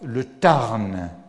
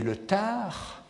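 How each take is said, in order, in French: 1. Le n final du nom se prononce. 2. Le n final du nom est muet. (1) "On ne dit pas le Tarn comme à l'école primaire de la Troisième République" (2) "mais le Tard"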